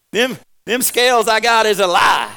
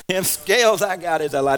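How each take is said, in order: First: High, loud laughing shout; loud, laughing protest against the scales; comic outburst. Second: Said in the usual way. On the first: Real, not acted. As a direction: shout the complaint through a laugh. Joking complaint about scales.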